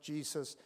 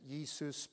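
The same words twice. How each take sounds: First: The name is said with an English pronunciation. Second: The name is said with a Spanish pronunciation. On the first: This is how the spelling reads in English. "but it's spelt Jesus" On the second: This is how the local men say the name. "I'm sure they pronounce it Jesus"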